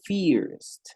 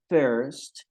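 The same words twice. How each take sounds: First: The vowel sounds like the 'ee' of fierce. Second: The vowel is the r-coloured 'ur' sound. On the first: It means fierce. The speaker calls it wrong. "no estoy diciendo primero o primer, sino que estoy diciendo feroz" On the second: It means the first one. The speaker calls it right. "en vez de decir first"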